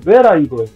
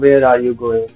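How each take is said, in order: First: It is said with a clear questioning tune. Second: It is said flatly, without a questioning tune. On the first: The speaker calls it right. "तो इस तरह से बोलना है" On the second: The speaker calls it wrong. "Question है तो उसको ऐसे नहीं पूछना"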